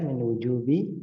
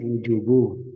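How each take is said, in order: First: The word ends with an i vowel. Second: The word ends with a u vowel. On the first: The speaker calls it right. "Nah, gitu ya" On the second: The speaker calls it wrong. "ada min kok dibaca wujubu"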